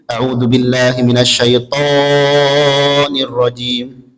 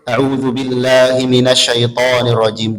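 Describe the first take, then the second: First: The long vowels are stretched about twice as long. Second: The long vowels are held for a normal length. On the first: The speaker calls it wrong. "dua jadi empat atau jadi lebih" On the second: The speaker calls it right. "Mestinya dua"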